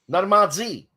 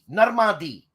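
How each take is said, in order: First: The name is said with French pronunciation. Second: The name is said with English pronunciation. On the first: "name in, in French again" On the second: "I could say Normandy"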